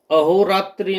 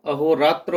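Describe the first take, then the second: First: अहोरात्रि ending in a clear इ; the incorrect अहोरात्रि, final -tri; wrong form. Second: अहोरात्र ending in a light schwa; the correct अहोरात्र, ending in -trə; correct form. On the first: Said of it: "अहोरात्रि नहीं होता". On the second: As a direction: say अहोरात्र as a-ho-raa-trə, with no final i. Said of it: "अहोरात्र होता है". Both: Shown as a demonstration.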